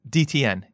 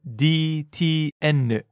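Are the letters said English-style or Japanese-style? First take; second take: English-style; Japanese-style. First: The letters are said with English letter sounds. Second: The letters are said with Japanese letter sounds. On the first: The speaker calls it wrong. "So it's not" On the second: The speaker calls it right.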